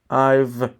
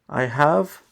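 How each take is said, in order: First: The two words are contracted into one syllable. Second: The two words are said fully and separately. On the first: "that's the short form" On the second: "I have is a complete form"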